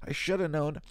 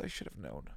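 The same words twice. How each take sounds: First: Higher and louder, cracking; emotional exclamation; tearful outburst. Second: Soft, low, near tears; wistful muttered regret; tearful. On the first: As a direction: let it burst out through tears. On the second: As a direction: murmur it to yourself, choked up. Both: Real, not acted. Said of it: "start crying".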